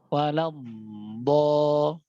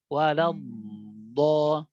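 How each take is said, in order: First: The final consonant flows on with continuous friction. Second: The final consonant flows on with continuous friction.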